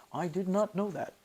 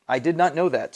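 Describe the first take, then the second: First: Much softer, in an odd put-on voice; a quick, bad impression, half under the breath; badly done mimicry, muted; terrible impersonation. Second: Said in the usual way. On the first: Shown as a demonstration. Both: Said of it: "that's a terrible impersonation".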